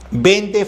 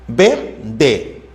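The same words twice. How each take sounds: First: Said in the usual way. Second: VENDE split as VEN, pause, DE; syllable by syllable. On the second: Shown as a demonstration. Teacher checking vende for vowel sequences, syllable by syllable. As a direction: slowly separate VENDE into two syllables. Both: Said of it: "No hay secuencia vocálica".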